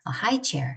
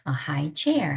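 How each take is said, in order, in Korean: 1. 강세는 high에 와요. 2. 강세는 chair에 와요. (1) "이렇게 강세를 앞에다 두시고 두 단어를 붙입니다" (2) "그냥 일반 명사 구예요"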